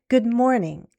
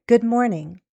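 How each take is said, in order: The two takes are said the same way.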